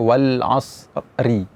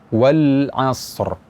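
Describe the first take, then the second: First: The final r is followed by an i vowel. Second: The final r is trilled with no following vowel. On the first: The speaker calls it wrong. "Misalnya wal asri" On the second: The speaker calls it right. "cuma getaran saja tanpa disertai dengan uh, bunyi harakat"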